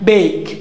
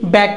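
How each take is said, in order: First: The vowel is a long 'ay' sound. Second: The vowel is a short flat 'a' sound. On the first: The speaker calls it right. "না বেক" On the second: The speaker calls it wrong. "ব্যাক না"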